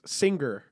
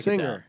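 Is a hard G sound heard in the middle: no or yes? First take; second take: yes; no. First: A sharp hard G follows the ng. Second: The ng runs smoothly with no hard G. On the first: "Ethan goes" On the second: "listen to this"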